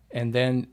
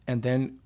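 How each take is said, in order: Both takes have the same delivery.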